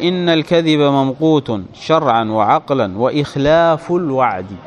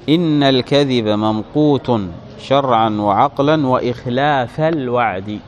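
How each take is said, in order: First: The word ikhlaf ends with a u vowel. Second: The word ikhlaf ends with an a vowel. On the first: The phrase is read as a separate nominative. "برفع المعطوف" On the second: The phrase is joined to the subject of inna. "بنصب إخلافا"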